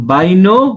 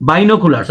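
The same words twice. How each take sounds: First: Binoculars said bai-no-ku-lars with a rising end; the common local way to say binoculars; local bainokulars. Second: Binoculars as bi-no-kyu-lars, falling end; correct binoculars. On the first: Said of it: "উচ্চারণ মানে আমরা করি". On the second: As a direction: say binoculars the native way. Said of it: "আসলে উচ্চারণ হচ্ছে". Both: Shown as a demonstration.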